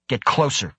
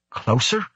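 First: Higher, snappy command with falling end; snapped order. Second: CLOSER rising as a question; questioning echo. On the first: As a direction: snap out an order. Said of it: "Krebs snapped". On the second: Startled echo of the order. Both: A narrator's reading.

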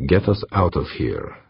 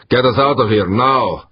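First: Slow, controlled order; forced calm, measured. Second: High, loud command; urgent shouted order. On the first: Harbin repeating his order to pilot, measured calm. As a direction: give the order slowly, holding it calm. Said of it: "he repeated, trying to sound calm, measured". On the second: Harbin ordering pilot to flee, loud urgent shout. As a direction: shout the order, pitch and volume up. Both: A narrator's reading.

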